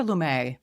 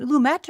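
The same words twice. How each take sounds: First: "Lumet" with a silent t; alternative pronunciation. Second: "Lumet" with a sounded final t; pronunciation option. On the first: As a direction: say "Lumet" as loo-MAY, French style. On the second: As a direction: say "Lumet" as loo-MET. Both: Shown as a demonstration. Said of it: "Is it Lumet or Lumet?".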